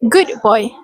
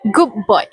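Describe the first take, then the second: First: The d of good is clear and separate. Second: The d of good blends into the b. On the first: "kept it clear and separate by saying" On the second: "The "the" in good can blend into the "b" in boy, making it sound like"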